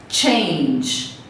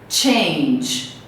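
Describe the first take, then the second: Both takes have the same delivery.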